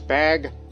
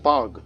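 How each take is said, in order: First: The vowel sounds like the one in 'bag'. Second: The vowel sounds like the one in 'bug'. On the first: This is how outsiders would say the name. "Westerners would probably pronounce the name as Bag" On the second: This is how locals would say the name. "in these parts I think it's probably pronounced Bug"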